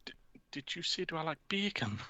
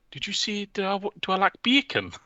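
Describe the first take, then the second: First: High, much softer dazed Geordie murmur; a hushed, lost repeat in a put-on high voice; Steve Bruce impression. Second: Very high, dazed Geordie mumble; confused answer in a put-on high voice; Steve Bruce impression. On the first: Steve Bruce snapping back to reality, hushed and confused. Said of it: "snaps back to reality and he's like". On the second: Steve Bruce answering a reporter, lost and high-pitched. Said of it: "And he's like".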